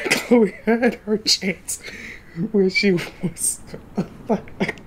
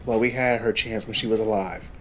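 First: Higher, louder, very slow mock-solemn delivery; mock dramatic. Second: Said in the usual way. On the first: Streamer mocking Chloe's fate to viewers, hammed-up slow solemnity. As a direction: stretch it out like a hammy eulogy.

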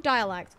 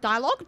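First: "Dialect" stated with a falling end; settled correction. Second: "Dialogue" louder, with a rising end; questioning self-check. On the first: Player fixing their own slip, "Dialect" as a falling statement. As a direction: land "Dialect" as the corrected word. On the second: Player catching their own wrong word, "Dialogue" as a rising question. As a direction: query "Dialogue" as a doubted word. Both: Real, not acted.

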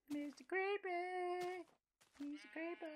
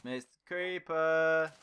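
First: Slow, high squeaky Mister Creeper. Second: Said in the usual way. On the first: Shown as a demonstration. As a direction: stretch it out high and tiny.

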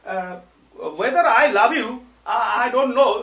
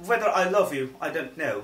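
First: Loud, high demo of Bengali-accented English; exaggerated Banglish, pitched up and loud. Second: Polished English "whether I love you", easy volume; refined pronunciation. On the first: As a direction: say "love you" as a heavy Banglish "labh iu". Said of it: "আপনাকে example দেওয়ার জন্য". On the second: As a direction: say "I don't know" smoothly with a rounded diphthong in "know". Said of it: "আপনি যদি একটু বলেন". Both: Shown as a demonstration.

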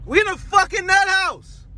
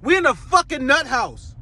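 First: "nut house" pushed higher and harder, disbelieving; exasperated repeat. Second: Said in the usual way. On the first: Shown as a demonstration. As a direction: repeat it up high, leaning on "nut".

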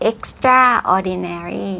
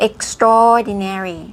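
First: "extraordinary" split as EX-TRA-or-di-nary; "extraordinary" with the A of "extra" fully sounded; wrong pronunciation. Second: "extraordinary" as ek-STROR-di-nary, A swallowed; slow "extraordinary" with a long stressed STROR; correct pronunciation. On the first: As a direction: say "extraordinary" as two words, extra plus ordinary. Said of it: "ไม่ใช่ extraordinary". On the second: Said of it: "ออกเสียงว่า extraordinary". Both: Shown as a demonstration.

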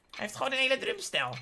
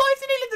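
First: Said in the usual way. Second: "drumstijl" line squeaked way up; high-pitched amazed exclamation; high excited squeal. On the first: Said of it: "Hij heeft een hele drumstijl". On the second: Shown as a demonstration. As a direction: blurt "Hij heeft een hele drumstijl" in a high excited voice.

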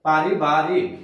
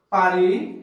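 First: পারিবারিক said lower in two stressed beats, rising at the end. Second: পারিবারিক split into two beats, পারি then Barik, rising at the end; said in two stress beats. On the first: Teacher repeating পারিবারিক lower so students hear its two beats. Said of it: "উচ্চারণ করছি দুইবারে". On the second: Teacher demonstrating to students how পারিবারিক splits into two stressed halves. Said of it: "শাসাঘাত দুইবারে উচ্চারণ করি". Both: Shown as a demonstration.

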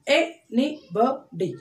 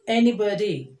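First: ANYBODY slowly as a, ny, bo, dy; four separate beats on ANYBODY; split into syllables. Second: Said in the usual way. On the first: Shown as a demonstration. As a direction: pause after each syllable of ANYBODY. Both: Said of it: "splitting the word like this".

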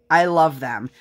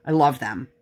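First: Insistent gushing repeat; emphatic repeat. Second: Said in the usual way. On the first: Shown as a demonstration. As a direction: say "I love them" again, leaning on "I".

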